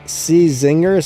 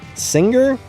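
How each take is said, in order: First: The name starts with a separate 'see' sound. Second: The name is said as a single word 'singer'. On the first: "I pronounce it C Zinger" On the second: "that brand's actually pronounced Singer"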